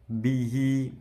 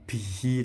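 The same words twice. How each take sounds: First: The final vowel is held long. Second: The final vowel is short. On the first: The speaker calls it right. "hi panjang" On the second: The speaker calls it wrong. "jangan bihi"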